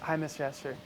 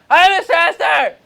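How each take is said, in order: First: It is said quietly, in a low voice. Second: It is said loudly.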